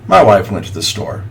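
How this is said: The voice sounds flat and uninterested. The speaker calls it wrong. "it sounds very disinterested"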